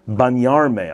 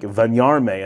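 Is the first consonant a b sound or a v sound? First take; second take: b; v. First: It starts with a firm b sound. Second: It starts with a soft v sound. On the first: "when you're expecting a b sound" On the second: "that vun sound is so confusing"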